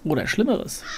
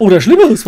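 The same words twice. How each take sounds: First: Soft ominous Schlimmeres; quiet. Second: Louder, startled Schlimmeres. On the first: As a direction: murmur it softly. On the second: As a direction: blurt it out loud. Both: Real, not acted.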